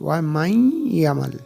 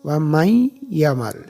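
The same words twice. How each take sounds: First: The n merges into a doubled y sound. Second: The n merges into a doubled y sound.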